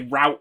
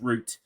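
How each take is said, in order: First: It is said in an American pronunciation. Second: It is said in a British pronunciation. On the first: The speaker adapts to American listeners. "I have to say route all the time" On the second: This is the speaker's own native form. "instead of route"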